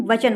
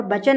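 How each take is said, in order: First: Said in the usual way. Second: बचन opening on b instead of v; wrong pronunciation. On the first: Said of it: "वचन होता है". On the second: Shown as a demonstration. Teacher shows the wrong word, starting with b. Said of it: "बचन नहीं".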